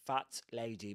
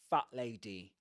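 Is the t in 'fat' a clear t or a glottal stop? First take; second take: clear t; glottal stop. First: The t in fat is fully pronounced. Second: The t in fat is a glottal stop. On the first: The speaker calls it wrong. "They don't say fat lady" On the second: The speaker calls it right. "but fat lady. That's with a, a glottal stop there"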